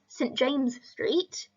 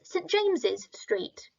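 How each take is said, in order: First: James is said without an extra syllable. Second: James is followed by an extra 'iz' syllable. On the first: "the first one is Saint James Street" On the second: "the second one is Saint James's Street"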